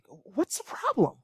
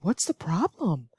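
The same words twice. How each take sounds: First: The tone sounds irritated and upset. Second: The tone sounds caring and concerned. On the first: Why is there a problem, you should be doing this. "if you're upset or irritated that somebody is not doing something" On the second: I care and want to know what is wrong. "very asked very concerning, in a concerning way"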